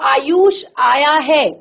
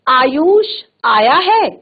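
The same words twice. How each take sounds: First: It sounds like a plain statement. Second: It sounds like a question. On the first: It simply gives information. "सामान्य सूचना" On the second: It asks whether he has come. "प्रश्नवाचक।"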